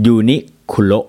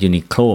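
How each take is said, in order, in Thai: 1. อ่านด้วยเสียงแบบญี่ปุ่น เช่น yu-ni-ku-ro 2. อ่านแบบไทย เช่น yu-ni-khlo (1) "คนญี่ปุ่นจะอ่านชื่อแบรนด์นี้ว่า" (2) "ไม่อ่านว่า, Uniqlo, เหมือนเรา"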